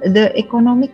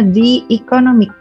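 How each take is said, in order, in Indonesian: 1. 'The' diucapkan dengan vokal pendek 'thuh'. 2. 'The' diucapkan dengan vokal panjang 'thee'. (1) "bukan the economic ya" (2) "bacanya the economic"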